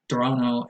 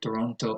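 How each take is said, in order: First: The T after the N disappears. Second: The T after the N is clearly pronounced. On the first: "becomes an N" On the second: "and not"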